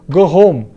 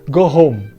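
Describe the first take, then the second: The two takes are said the same way.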